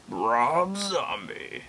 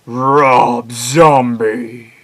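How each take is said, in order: First: Very slow, swooping delivery of the name; drawn-out eerie name call; softer redo. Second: Loud, hugely stretched proclamation; booming drawn-out horror-show shout; monster announcer. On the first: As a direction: stretch it out at normal volume, theatrically. Redoes the name another way. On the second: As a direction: belt the name out very slowly, hammed-up. Announces singer's name in performed voice. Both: Acted.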